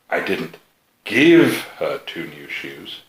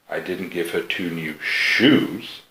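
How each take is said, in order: First: The word give carries the main stress. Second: The word shoes carries the main stress. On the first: She got them but had to pay. "You sold her two new shoes" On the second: She was given something other than shoes. "So you gave her two new something, but not shoes"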